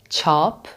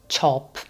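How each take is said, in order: First: The vowel is the Persian 'a' sound. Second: The vowel sounds like English 'chop'. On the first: The speaker calls it right. "which means print" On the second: The speaker calls it wrong. "not chop"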